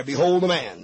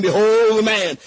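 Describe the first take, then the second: First: Behold the man dropped lower, savored; lower repeat. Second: A firm, louder announcement of Behold the man; Pilate proclaiming. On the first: Shown as a demonstration. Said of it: "I could preach a week right there". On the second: Retold or imitated. Preacher voicing Pilate to the congregation, a firm proclamation. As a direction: ring out Behold the man as Pilate presenting him. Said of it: "and Pilate saith unto them".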